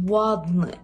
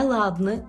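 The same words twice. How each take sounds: First: The word starts with a lip w sound. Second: The word starts with a hard l sound. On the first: The speaker calls it right. "Маємо тут губний звук" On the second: The speaker calls it wrong. "Не ладне"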